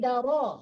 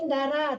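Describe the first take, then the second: First: The r sound is thick and heavy. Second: The r sound is thin and light. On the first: The speaker calls it right. "tapi daro, ro, tebalkan rohnya" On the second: The speaker calls it wrong. "Jangan darah"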